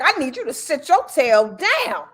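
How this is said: The voice is aggressive with a shaking vibrato.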